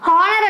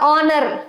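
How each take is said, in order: First: The word starts with a clear h sound. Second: The word starts directly with a vowel. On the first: The speaker calls it wrong. "హానర్ అనం కదా" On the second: The speaker calls it right.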